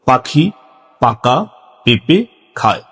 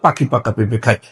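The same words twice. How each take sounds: First: It is said slowly in short separate chunks. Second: It is said at the quickest pace. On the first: "সংক্ষিপ্তভাবে ছোট ছোট করে ... এভাবে বলতে হবে" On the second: "আরো একটু দ্রুততার সাথে"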